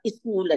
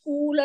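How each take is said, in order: First: A vowel sound comes before the s sound. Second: The word begins directly with the s sound. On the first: "దాని పక్కన వాళ్ళు ఈ పెడతారు" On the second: "స్కూల్ అంటే అదొక ద్వితాక్షరం"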